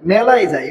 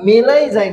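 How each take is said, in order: First: The first vowel is an open ae sound. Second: The first vowel is a closed e sound. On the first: The speaker calls it right. "আমরা কোথায় যাই?" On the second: The speaker calls it wrong. "আমরা মেলায় যাই না"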